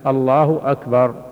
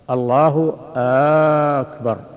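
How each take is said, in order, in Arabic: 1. لا تُمَدّ أي حركة فوق قدرها الطبيعي. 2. الحركة الأولى في «أكبر» ممدودة طويلاً. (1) "أن يأتي بها بهذا اللفظ الله أكبر" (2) "لو مد همزة أكبر فقال"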